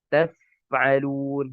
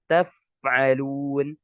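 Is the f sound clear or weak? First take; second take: clear; clear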